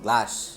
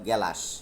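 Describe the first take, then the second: First: The g and l are joined with no vowel. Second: A vowel separates the g and the l. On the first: This is the standard form. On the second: This is the regional dialect form.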